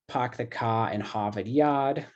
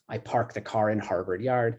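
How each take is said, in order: First: It is said with a Boston accent, dropping R's. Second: It is said without a Boston accent, R's pronounced.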